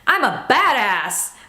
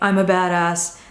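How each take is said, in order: First: It is said with strong energy and conviction. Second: It is said weakly, without conviction.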